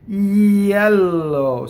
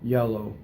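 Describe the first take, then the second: First: It is said with an Italian accent. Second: It is said with an American accent. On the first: "An Italian would say yellow, right? From an E position" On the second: "if an American would say the word yellow"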